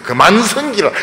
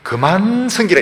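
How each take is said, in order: First: The word 그만 is said crisply and clipped. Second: The word 그만 is said smoothly, not clipped. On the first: Serve only him. The speaker calls it right. "그만 이렇게 딱딱" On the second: Stop serving him. The speaker calls it wrong. "그만 섬기라 이게 아닙니다"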